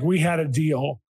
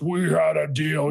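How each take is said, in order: First: It is said in the speaker's normal voice. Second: It is said in a put-on demonic voice.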